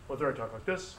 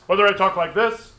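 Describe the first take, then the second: First: Softly, a quieter take; quiet classroom demo voice; soft talk. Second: Much louder, same pitch; raised demo voice for the class; loud talk. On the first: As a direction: drop the volume right down. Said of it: "it's the same frequency of my voice". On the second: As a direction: boom it out to show more volume. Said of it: "you can make a sound louder". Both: Shown as a demonstration.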